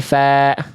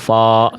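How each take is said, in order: First: The syllable is said thin and light. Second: The syllable is said thick and heavy. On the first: The speaker calls it right. "tapi fa" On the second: The speaker calls it wrong. "jangan tebel fo"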